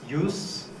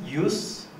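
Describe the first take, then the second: First: The vowel is short, ending in a voiceless hiss. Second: The vowel is short, ending in a voiceless hiss.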